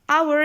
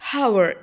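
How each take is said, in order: First: The word begins with a vowel sound. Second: The word begins with a consonant sound. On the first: The speaker calls it right. "Hour is the correct pronunciation. So a sound is there" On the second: The speaker calls it wrong. "We are not saying hour"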